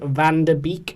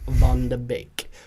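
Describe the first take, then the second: First: The first word is said like 'van'. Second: The first word is said like 'von'. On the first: The speaker calls it wrong. "It's spelled Van de Beek" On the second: The speaker calls it right. "but it's Von de Beek"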